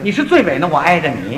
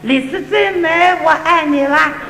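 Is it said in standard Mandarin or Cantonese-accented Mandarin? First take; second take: standard Mandarin; Cantonese-accented. First: It is said in standard Mandarin. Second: It is said in Cantonese-accented Mandarin.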